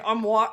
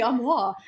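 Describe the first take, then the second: First: Armoire said ARM-wahr with hard R; American pronunciation. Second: Armoire the narrator's way; French pronunciation. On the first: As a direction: armoire with a harder R. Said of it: "with my trashy American accent". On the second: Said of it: "the audiobook narrator said it armoire". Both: Shown as a demonstration.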